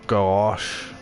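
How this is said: The word is said in a non-Danish way. "That's not how you say it in Denmark"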